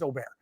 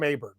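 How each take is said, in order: First: The name is said in its native way. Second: The name is said in an Americanized way. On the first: This is the player's actual name. "but he's Aubert" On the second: This is the speaker's personal habit. "I like to call him Aberg. That's just me"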